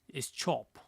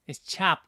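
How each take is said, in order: First: It is said in a British accent. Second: It is said in an exaggerated American accent. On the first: "in the British accent would be" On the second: "In the U S, choppy. Am I or am I exaggerating it?"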